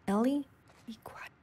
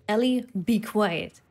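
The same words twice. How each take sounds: First: Dropping away to barely audible; very soft, secretive repeat; hushed warning. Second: Said in the usual way. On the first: Real, not acted. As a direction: hush her, fading to almost nothing. Repeats the hush as enemy nears.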